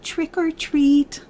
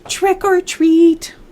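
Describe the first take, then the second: First: It is said very softly. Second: It is said a little louder.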